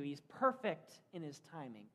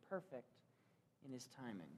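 First: Said in the usual way. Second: Soft echo. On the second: Acted. Preacher repeats phrase, softer echo.

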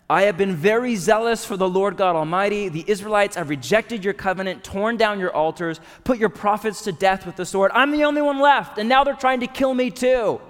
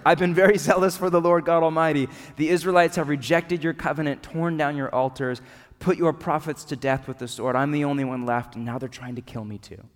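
First: Loud, high, exasperated complaint poured out to God; desperate venting. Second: Questioning, deflated. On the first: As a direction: pour it all out at God, at the end of your rope. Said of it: "in a very different tone this time around". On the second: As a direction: let the same words fade into a doubtful question. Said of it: "if it's more of a question than an answer". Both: Acted.

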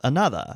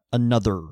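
First: Another with the final R dropped, like ano-thuh; non-rhotic another. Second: Another with a hard R at the end; another, ending on a strong American R; rhotic another. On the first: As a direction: soften the R away in another. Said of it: "Whereas with a mid-Atlantic accent". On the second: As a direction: roll into the R of another. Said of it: "something is a rhotic pronunciation". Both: Shown as a demonstration.

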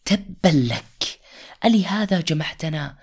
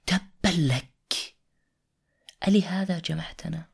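First: Angry retort. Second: Scornful quote. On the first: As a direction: spit it back at him in scorn. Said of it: "فخرج أبو لهب قائلا". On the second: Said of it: "وقف أبو لهب". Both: Acted.

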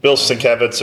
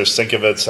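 First: Sienkiewicz said sin-KEV-its; first pronunciation. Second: Sienkiewicz said SINK-uh-vits; alternative pronunciation. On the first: Comic fan unsure of the artist's name, trying Sienkiewicz as sin-KEV-its. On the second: Comic fan offering another guess at the artist's name, Sienkiewicz as SINK-uh-vits. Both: Shown as a demonstration. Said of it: "I don't know how he pronounces it".

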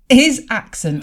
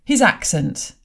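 First: "His accent" again, louder and higher; excited, louder repeat of "His accent"; emphatic repeat. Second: Said in the usual way. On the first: Real, not acted. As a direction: punch "His accent" out with glee.

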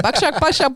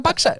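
First: Put-on Jamaican accent with a rising buckshot. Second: Put-on Jamaican accent with a higher buckshot. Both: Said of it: "I'm gonna do a Jamaican accent".

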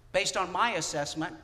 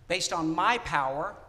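First: "my" rising and leaned on; a self-assured pray-er stressing "my" to Jesus. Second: "my" rising, louder and slower; a self-assured pray-er pressing "my power" on Jesus; stress on my. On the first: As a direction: lean on "my" as if you know best. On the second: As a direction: hit "my" hard and slow. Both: Pretend. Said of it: "tell him what he needs to do".

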